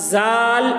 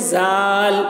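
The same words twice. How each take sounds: Both takes have the same delivery.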